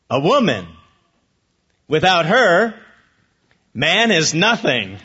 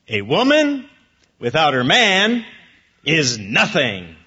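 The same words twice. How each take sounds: First: A pause comes after her, before man. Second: Pauses come after woman and after man.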